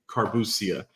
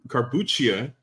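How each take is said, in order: First: The name ends with a 'see-ah' sound. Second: The name ends with a 'cha' sound. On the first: This is how the family says it. "me being born in Dominican Republic ... we say carbuccia" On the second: This is the standard Italian pronunciation. "carbuccia is the technical way"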